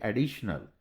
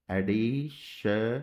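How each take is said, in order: First: Said in the usual way. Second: Drawn out slowly. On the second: Shown as a demonstration. Teacher tracing additional in shorthand, said slowly. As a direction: stretch additional out slowly, ending on a rise. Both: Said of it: "तो इस तरीके से शन बीच में लगा दिया".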